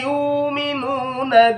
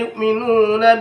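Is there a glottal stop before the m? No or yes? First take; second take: no; yes. First: The glottal stop is replaced by a long u. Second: A glottal stop is heard before the m. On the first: "As-Susi itu adalah mengibdalkan hamzah sukun dengan huruf waw" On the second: "Bacaannya sama dengan hafaz"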